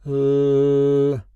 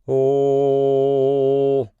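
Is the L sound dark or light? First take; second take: light; dark. First: The L sounds clear and bright. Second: The L sounds hollow and dark. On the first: "So this is a light L" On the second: "Now let's take a look at a dark L"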